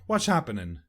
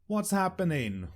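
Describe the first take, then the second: First: The words are slurred and run together. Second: The words are said clearly and distinctly.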